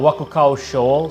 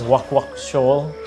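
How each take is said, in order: First: The first word is said with all its syllables. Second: The first word is clipped to a repeated 'wak'.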